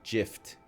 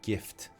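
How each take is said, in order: First: It begins with a soft J sound. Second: It begins with a hard G sound. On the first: The speaker calls it wrong. "You wouldn't say gift" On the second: The speaker calls it right. "You would say gift, but with a hard G"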